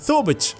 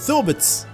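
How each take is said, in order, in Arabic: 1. الصوت الساكن الأخير هو صوت ch. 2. الصوت الساكن الأخير هو صوت ts. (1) "يتحول إلى ثوبتش" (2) "أو ثوبتس"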